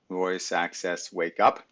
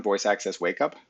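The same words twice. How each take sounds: First: Slow, spaced-out voice command; drawn-out words, UP louder at the end. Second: Said in the usual way. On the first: Shown as a demonstration. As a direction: say it slowly for the voice recognition. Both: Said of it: "I have to say it slow".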